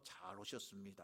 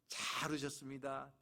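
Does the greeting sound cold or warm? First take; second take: cold; warm. First: It sounds stiff and cold. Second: It sounds bright and warm.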